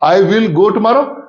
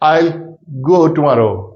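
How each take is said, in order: First: The first words are said as full I will. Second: The first word is said as contracted I'll. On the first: The speaker calls it wrong. "आई विल नहीं है" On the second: The speaker calls it right.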